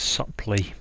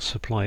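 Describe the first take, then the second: First: The word ends with an 'ee' sound. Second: The word ends with an 'eye' sound. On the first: It means in a supple manner. The speaker calls it right. "it's supply. Um, so yeah, if something is supple" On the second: It means to provide something. The speaker calls it wrong. "Supply is not supply"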